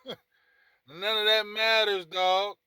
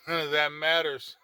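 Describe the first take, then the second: First: Slow, loud and higher, laughing through it; laughing emphasis. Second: Said in the usual way. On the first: Real, not acted. Laughing as he tells Dak his season doesn't matter. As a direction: drag it out, laughing at the idea.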